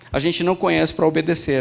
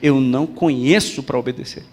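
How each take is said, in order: First: It is said at normal speed. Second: It is said more slowly.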